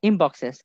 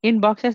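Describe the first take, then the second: First: The word 'in' ends with an m sound. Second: The word 'in' ends with an n sound. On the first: The speaker calls it right. "এনটা এম হয়ে যাবে" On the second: The speaker calls it wrong. "রাইট your answers ইন boxes না হয়ে"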